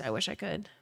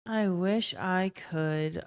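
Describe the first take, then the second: First: Said in the usual way. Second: Slow, soft I wish I could, trailing off; wistful quiet repeat. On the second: Real, not acted. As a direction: say it again slowly and softer, longing.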